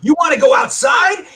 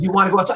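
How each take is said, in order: First: High, raised-voice confrontation; retold yelled challenge. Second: Said in the usual way. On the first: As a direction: call them out, voice climbing high. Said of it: "And I started yelling". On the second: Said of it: "And he goes".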